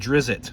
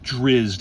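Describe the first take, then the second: First: The name has two syllables, with a vowel before t. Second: The name has one syllable, with no vowel before t. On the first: This is how it was said as a child. "we always used to call him Drizzit" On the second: This is how it is said now. "but it's, it was Drizzt"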